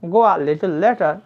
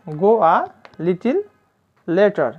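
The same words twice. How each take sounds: First: "little" said as "li-tol"; corrected pronunciation of little. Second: Said in the usual way. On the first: Shown as a demonstration. Teacher repeating the phrase after correcting it, "little" as "li-tol". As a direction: say "little" with a "-tol" ending, not "-til". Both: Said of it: "এই শব্দটি উচ্চারণ হবে লিটল".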